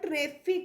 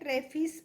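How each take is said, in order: First: The word ends with a k sound. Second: The word ends with an s sound. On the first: The speaker calls it right. "तो ट्रैफिक है" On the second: The speaker calls it wrong. "ट्रैफिस पढ़ते हैं या ट्रैफिक"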